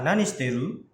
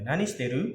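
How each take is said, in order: First: Nani shiteru asked with a rising end; casual question with a rise; question tune. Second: Nani shiteru. said flat and falling; plain falling statement; statement tune. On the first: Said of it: "kalau nanya itu nadanya naik". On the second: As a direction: let Nani shiteru. drop at the end as a statement. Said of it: "pernyataan nadanya datar atau turun". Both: Shown as a demonstration.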